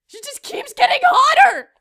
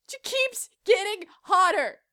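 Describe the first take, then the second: First: Higher, louder exasperated cry; mock outrage. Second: Said in the usual way. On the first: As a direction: burst out in comic exasperation.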